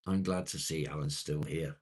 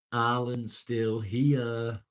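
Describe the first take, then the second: First: Said in the usual way. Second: Slow, higher and louder sing-song; playful drawn-out greeting; drawn-out call. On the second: Real, not acted. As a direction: stretch it out like a cheery announcement.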